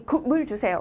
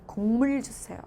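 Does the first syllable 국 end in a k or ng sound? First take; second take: k; ng. First: The first syllable ends in a k sound. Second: The first syllable ends in an ng sound. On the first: The speaker calls it wrong. "라고 하는 게 아니라" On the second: The speaker calls it right. "하게 되는 거예요"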